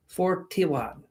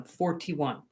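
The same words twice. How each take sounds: First: "Forty-one" in a vague foreign put-on accent; odd put-on accent. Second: Said in the usual way. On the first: Shown as a demonstration. Streamer repeating a viewer's number in a mystery put-on accent. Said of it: "I don't know what accent that is, but it's offensive". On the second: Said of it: "I don't know what accent that is".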